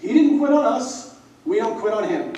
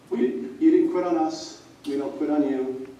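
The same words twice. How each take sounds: First: Loud, high retold shout; calling him out. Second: Said in the usual way. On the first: Senior scolds teammate at bench press, loud shout. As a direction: shout it like a captain rallying. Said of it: "he calls me out".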